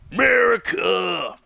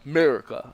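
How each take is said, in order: First: It is said in a rough, gravelly voice. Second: It is said in a plain, flat voice.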